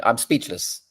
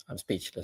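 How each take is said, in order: First: Said in the usual way. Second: Trailing off almost under his breath; quiet. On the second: Real, not acted. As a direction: drop it to a stunned murmur. Repeats his disbelief.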